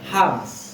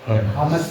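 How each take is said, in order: First: The m and s are joined without a vowel. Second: A vowel is inserted between m and s. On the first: The speaker calls it right. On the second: The speaker calls it wrong. "Bukan hamas"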